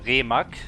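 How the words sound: The name is pronounced the German way.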